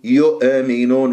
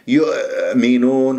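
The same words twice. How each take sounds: First: The hamza is released with an echoing bounce. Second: The hamza comes out as several repeated catches. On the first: "البعض يقلقلها يقول يؤمنون يؤمنون وهذا خطأ" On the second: "أو يطلع همزات عديدة يؤمنون وهذا أيضا خطأ"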